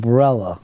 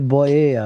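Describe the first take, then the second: First: The middle has an L and rhymes with umbrella. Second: The middle sounds like 'ee-ya', without an L. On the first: The speaker calls it right. "it rhymes with umbrella in the ads" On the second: The speaker calls it wrong. "they don't say Boya or whatever"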